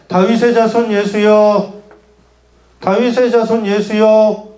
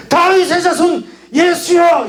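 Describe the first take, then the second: First: Slow, level call, held back from shouting; restrained, drawn-out call. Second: High, drawn-out cry for help; desperate cry. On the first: Preacher shows how the blind man did not cry out, slow and restrained. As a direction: call it slowly and evenly, without urgency. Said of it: "이렇게 외쳤을까요?". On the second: Preacher shows the blind man calling Jesus, high desperate cry. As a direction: cry it out high and slow, straining to be heard. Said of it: "이렇게 외쳤겠죠?". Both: Shown as a demonstration.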